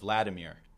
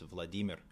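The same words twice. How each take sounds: First: The stress is on the first syllable. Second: The stress is on the second syllable. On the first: The speaker calls it wrong. "people don't only say Nabokov instead of Nabokov, but the whole name Vladimir" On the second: The speaker calls it right. "It's Vladimir, so it's on the D"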